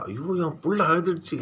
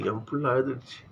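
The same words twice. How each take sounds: First: High, wailing cry of a worried mother; mother's lament. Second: Mother's lament. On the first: Mother cries out over her weeping child, high wail. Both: Acted. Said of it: "அந்த அம்மா பாடுகிற மாதிரி".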